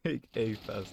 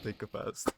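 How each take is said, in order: First: The 'a' is said like the letter name. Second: The 'a' is a weak, reduced 'uh'. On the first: It means rushing the A bombsite. The speaker calls it right. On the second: It sounds like taking a fast. The speaker calls it wrong. "not take a fast"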